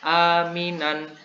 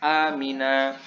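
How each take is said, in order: First: The word ends with an -an sound. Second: The word ends with a long -a sound. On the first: The reading continues into the next word. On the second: The reading stops at this word.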